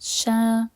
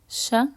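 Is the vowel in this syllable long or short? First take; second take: long; short. First: The vowel after the sh is held long. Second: The vowel after the sh is cut short. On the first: "Those are the long vowels" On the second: "And with the short ones"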